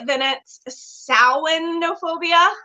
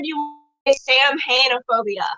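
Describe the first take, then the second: First: It is said with the Irish pronunciation. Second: It is read out just as spelled. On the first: "if you are saying it the Irish way" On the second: "if you're just at the word"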